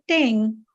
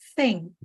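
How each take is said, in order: First: It starts with a different sound, tongue in. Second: It starts with a th sound, tongue out. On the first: The speaker calls it wrong. "if you just say thing" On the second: The speaker calls it right. "make sure that your tongue is out"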